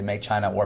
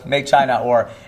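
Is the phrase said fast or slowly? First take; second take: fast; slowly. First: It is said quickly, with the words run together. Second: It is said slowly, with a clear break. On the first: The speaker calls it wrong. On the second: The speaker calls it right.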